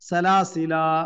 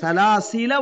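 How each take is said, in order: First: The final vowel is long, ending the phrase. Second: The final vowel is short, joined to next word. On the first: The reading stops here. "நிறுத்தினீங்கன்னா சலாசிலா அப்படின்னு" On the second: The reading continues without a stop. "அப்ப அந்த அலிஃபை நம்ம உச்சரிக்கல பாருங்க"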